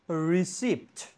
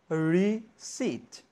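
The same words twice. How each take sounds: First: A P sound is pronounced before the T. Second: No P sound is heard before the T. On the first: The speaker calls it wrong. "I again mispronounced this word" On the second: The speaker calls it right. "The correct pronunciation will be receipt. The P will be silent"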